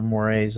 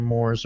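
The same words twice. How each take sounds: First: "mores" said as two syllables, "MOR-ayz"; two-syllable pronunciation. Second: "mores" said as one syllable, "morz"; one-syllable pronunciation. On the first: Speaker offering the other variant of the term, "mores" as "MOR-ayz". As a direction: say "mores" like "more-rays". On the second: Speaker unsure of the term offers a variant, "mores" as "morz". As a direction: say "mores" to rhyme with "doors". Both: Shown as a demonstration. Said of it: "however you pronounce it".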